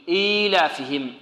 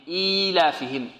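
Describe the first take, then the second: No difference in how they are said.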